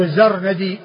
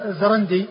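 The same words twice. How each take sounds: First: الزرندي said az-ZAR-na-di, no vowel after the r; الزرندي with the r closing the first syllable; pattern of marthad. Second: الزرندي said za-RAN-di, vowel after the r; الزرندي with r and n split by a vowel; first vowelling. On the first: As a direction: say الزرندي as zarnadi. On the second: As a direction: say الزرندي as zarandi, n closing the syllable. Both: Shown as a demonstration. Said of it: "يعني هو وزن مرثد".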